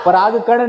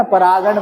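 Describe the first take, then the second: First: पराग कण said as two words, pa-raag kan; wrong word, पराग कण. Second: परागण said as one word, pa-raa-gan, no break; right word, परागण. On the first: Teacher showing students the wrong term, split पराग कण. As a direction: say पराग कण split into pollen and grain. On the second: Teacher giving students the correct term, one-word परागण. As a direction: run परागण together as a single word. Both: Shown as a demonstration. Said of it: "पराग कण नहीं बोलते हैं ना".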